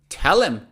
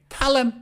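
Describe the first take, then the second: First: The word 'them' is reduced to 'em'. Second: The word 'them' is reduced to 'em'.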